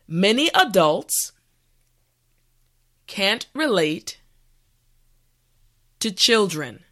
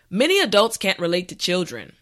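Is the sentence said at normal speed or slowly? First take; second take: slowly; normal speed. First: The sentence is said slowly. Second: The sentence is said at normal speed. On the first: "this time repeat after me" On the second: "the last time at a regular pace"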